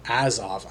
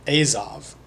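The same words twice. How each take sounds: First: "Azov" with a short A, AZ-ov; "Azov" as AZ-ov, A as in "jazz"; alternative pronunciation. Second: "Azov" with a long A, AY-zov; "Azov" as AY-zov, opening on "ay"; first pronunciation. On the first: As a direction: say "Azov" starting like "as". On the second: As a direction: say "Azov" starting like the letter A. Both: Shown as a demonstration. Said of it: "not sure how to pronounce it".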